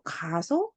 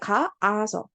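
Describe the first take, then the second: First: The repeated vowel is merged into one. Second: Two separate vowels are pronounced in a row. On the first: The speaker calls it right. "그냥 가서, 가. 이렇게 한다는 거야" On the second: The speaker calls it wrong. "이렇게 하지 않아요"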